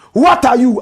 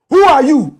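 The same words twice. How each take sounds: First: Said in the usual way. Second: Higher, louder challenge; sharp loud question. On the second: Real, not acted. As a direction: fire the question at them. Rhetorical question and answer.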